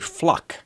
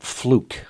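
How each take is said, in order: First: The vowel is a short uh sound. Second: The vowel is a long oo sound. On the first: The speaker calls it right. "her name is actually Fluck ... they don't pronounce the long U" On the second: The speaker calls it wrong. "I mispronounced her name. It's not Fluke"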